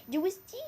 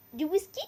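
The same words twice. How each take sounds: The two takes are said the same way.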